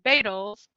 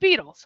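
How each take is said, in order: First: The first syllable sounds like 'bait'. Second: The first syllable sounds like 'beet'. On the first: The speaker calls it wrong. "pronouncing beetle wrong last time because I got fooled by the etymology, which is bait L" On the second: The speaker calls it right. "its pronunciation changes. So it's beetles, right?"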